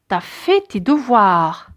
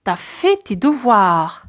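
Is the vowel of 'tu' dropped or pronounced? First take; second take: dropped; dropped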